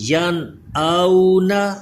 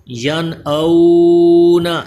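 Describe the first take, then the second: First: The middle 'au' vowel is kept short. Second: The middle 'au' vowel is drawn out long. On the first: The speaker calls it right. "बल्कि" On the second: The speaker calls it wrong. "इसे हम लंबा नहीं करेंगे, खींच कर नहीं पढ़ेंगे, यानी इसको यन आउना ऐसे नहीं पढ़ेंगे"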